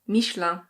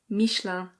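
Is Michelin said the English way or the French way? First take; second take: French; French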